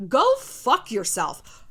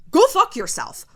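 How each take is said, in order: First: Each word spelled out slowly; slow deliberate curse. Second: Higher and louder "Go fuck yourself"; loud defiant curse. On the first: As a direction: say "Go fuck yourself" slowly, drawn out. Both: Real, not acted. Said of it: "righteous fire in your soul".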